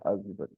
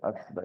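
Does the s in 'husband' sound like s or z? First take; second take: z; s. First: The middle consonant is a buzzing z sound. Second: The middle consonant is a hissing s sound. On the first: The speaker calls it right. "we say husband" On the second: The speaker calls it wrong. "we don't say husband"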